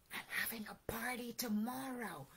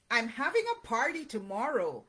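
First: Hushed, much softer storybook whisper. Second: Said in the usual way. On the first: A narrator's reading. Rabbit secretly telling Owl about tomorrow's party, whispered. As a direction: share it in a secretive hush. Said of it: "whispered Rabbit".

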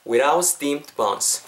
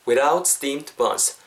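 Both takes have the same delivery.

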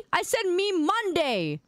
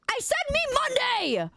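First: Steady, slow, a bit raised; firm correction. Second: Much higher, hammed-up outrage; mock angry shout. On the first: Acted. Streamer correcting chat, slow and firm. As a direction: set the record straight, slowly. Correcting a misread meme caption. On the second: Streamer mock-yelling at chat over the caption. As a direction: yell it like a cartoon tantrum.

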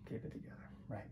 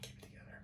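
First: Soft, voiced self-reassurance; soft murmured self-talk; softly voiced. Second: Very soft whisper to steady yourself; hushed, whispered self-talk. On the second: Acted. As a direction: breathe it out as a whispered self-calming.

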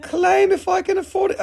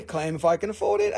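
First: Mock scream. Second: Said in the usual way. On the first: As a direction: shriek it like the excited viewer. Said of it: "she's screaming". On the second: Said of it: "Oh, I love that".

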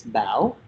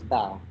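First: "Bao" with a rising, questioning tone; Vietnamese question-mark tone. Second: Said in the usual way. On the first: Shown as a demonstration. Musician shows interviewer their name, "[name]" in Vietnamese rising tone. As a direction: say "Bao" dipping then swinging up like a question. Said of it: "it has that question mark sound". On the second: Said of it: "having to sacrifice that Bao sound".

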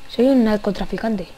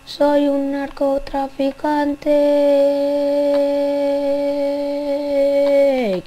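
First: Said in the usual way. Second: Very slow, stretched, put-on voice; drawn-out dealer voice. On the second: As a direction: drag every syllable like a shady dealer. Playing a drug dealer role. (voz de camello muy lenta y arrastrada)

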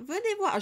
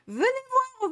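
First: Put-on high-pitched excited call of Venez voir, no accent yet; high mock fan call. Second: Put-on high, loud Marseille accent on Venez voir. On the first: Indignant fan calling the publisher over, high mock call. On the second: Indignant fan calling the publisher in a Marseille accent. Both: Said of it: "je vais reprendre mon accent marseillais".

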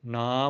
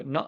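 First: ਨਾ held as a long aa; long open vowel in ਨਾ. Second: ਨ with a brief inherent vowel; ਨ as one short syllable, no long aa. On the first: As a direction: draw out the vowel of ਨਾ. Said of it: "ਜੇ ਕੰਨਾ ਲਾਵਾਂਗੇ". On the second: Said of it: "ਇਸ ਨੂੰ ਬੋਲਿਆ ਜਾਵੇਗਾ". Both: Shown as a demonstration.

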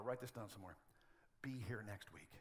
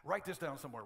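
First: Much softer, lower aside; murmured follow-up instruction; same words, now hushed and low; quiet repeat. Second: Said in the usual way. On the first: Shown as a demonstration.

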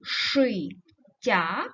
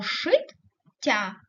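First: ШИТТЯ split as ши ... ття, pause after ши; Шиття broken before the double т; syllable break. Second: ШИТТЯ split as шит ... тя, pause between the two т; шиття broken inside the double т; syllable break. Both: Shown as a demonstration. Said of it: "ми можемо розривати їх".

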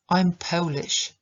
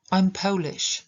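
First: "I'm Polish" again, POH-lish with a glide; repeat model. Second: "I'm Polish" with "Po" gliding, stress on "Po"; diphthong model. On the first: Teacher repeating the sentence for students. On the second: Teacher modelling for Polish learners. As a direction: say POH-lish, stress on the first syllable. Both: Shown as a demonstration. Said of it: "I znowu dwudźwięk o".

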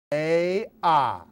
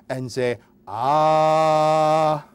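First: Said in the usual way. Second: Very slowly stretched "Open up and say ah"; slow, overdone say ah. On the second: Shown as a demonstration. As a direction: spell out "say ah" slowly as if to a toddler. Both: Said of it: "It's very simple, please".

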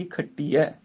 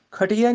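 First: ਖੱਟੀਐ ending in a clear ਐ sound. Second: ਖੱਟੀਐ said as ਖੱਟੀਏ, with a plain e ending; the mistaken ਖੱਟੀਏ ending on ਖੱਟੀਐ; wrong ਖੱਟੀਐ. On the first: Teacher models ਖੱਟੀਐ, final ਐ sound. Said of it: "ਐ ਦੇ ਨਾਲ ਉਚਾਰਨ ਹੋਏਗਾ". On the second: Teacher shows the wrong ending of ਖੱਟੀਐ. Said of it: "ਨਹੀਂ ਬੋਲਣਾ". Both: Shown as a demonstration.

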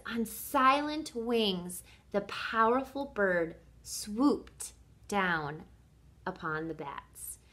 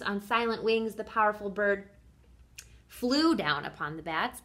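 First: Slow, dramatic storybook reading; savored reading. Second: Said in the usual way. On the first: Shown as a demonstration. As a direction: linger on each phrase, hushing at the end. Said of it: "Listen again to what she says". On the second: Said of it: "she could have said all the other things".

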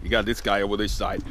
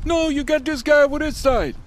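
First: Said in the usual way. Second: Very high, squeaky panicked voice; squeaky cartoon voice. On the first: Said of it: "some acting outside". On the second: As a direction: pitch way up like a frightened cartoon guy. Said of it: "let's say it's for some, some acting outside".

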